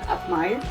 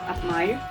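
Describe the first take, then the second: The two takes are said the same way.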